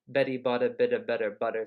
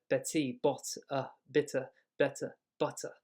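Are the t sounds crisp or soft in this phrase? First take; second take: soft; crisp. First: The t sounds are soft, flapped like quick d's. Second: Each t is a crisp, clearly released sound. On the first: "but English would be" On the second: "T t t t t"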